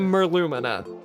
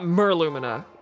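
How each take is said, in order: First: The stress falls on a later syllable. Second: The stress falls on the first syllable. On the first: The speaker calls it right. "Certainly Merlumina" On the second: The speaker calls it wrong. "It's not Merlumina"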